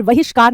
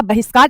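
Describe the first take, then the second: First: बहिष्कार starting with v, "vahishkaar"; wrong pronunciation. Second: बहिष्कार starting with b; correct pronunciation. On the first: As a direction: say बहिष्कार as "VA-hish-kaar". (बहिष्कार को 'वहिष्कार' बोलना) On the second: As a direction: say बहिष्कार as "BA-hish-kaar". (बहिष्कार में 'ब' की ध्वनि) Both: Shown as a demonstration. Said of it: "बहिष्कार नहीं होता".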